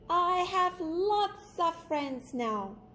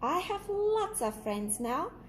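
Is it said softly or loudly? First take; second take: loudly; softly. First: It is said very loudly. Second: It is said at normal loudness.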